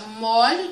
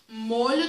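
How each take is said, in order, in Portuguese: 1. A vogal O tônica é aberta. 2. A vogal O tônica é fechada. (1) "Eu tenho um O aberto" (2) "e um O fechado"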